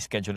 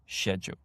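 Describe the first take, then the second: First: The word is said with a non-British pronunciation. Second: The word is said with a British pronunciation. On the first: "You could say schedule if you want to" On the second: "but British English"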